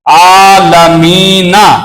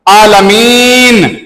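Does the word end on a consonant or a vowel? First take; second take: vowel; consonant. First: The word ends with a short vowel. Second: The word ends on a bare consonant. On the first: "आलमीना पे जबर" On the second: "इन तीनों जगह पे आप रुको"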